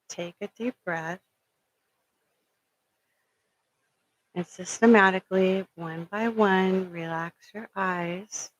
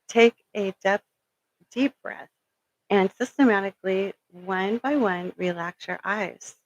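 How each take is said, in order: First: It is said in a soft, soothing hypnotherapy voice. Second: It is said in an ordinary speaking voice.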